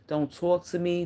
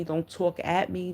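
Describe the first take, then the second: First: "talk to me" as the first half of a contrast; stress on contrast. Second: "at" leaned on, slowly; stress on AT. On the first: Warning someone about disrespect, measured stress on "talk to". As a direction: set up "to" against "at". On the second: Warning someone about disrespect, slow stress on "at". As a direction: draw out "talk at me" to mark the difference. Contrasts talking to and at. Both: Shown as a demonstration.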